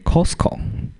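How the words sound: It is pronounced the way taught in Taiwan. "we say Costco"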